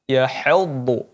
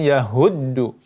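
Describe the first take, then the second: First: The first consonant is pronounced thin and light. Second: The first consonant is pronounced thick and heavy. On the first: The speaker calls it right. "Tapi dibaca tipis" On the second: The speaker calls it wrong. "bukan yahuddu"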